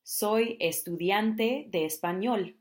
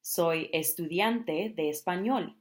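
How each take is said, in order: First: Soy estudiante de español slow and careful; slow Spanish demo. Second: Soy estudiante de español slow, even; slow Spanish demo. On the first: Teacher models introducing yourself as a student, slow. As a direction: say each word clearly. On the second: Teacher repeats the student phrase, slow. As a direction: repeat it carefully. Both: Shown as a demonstration. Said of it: "I am a Spanish student".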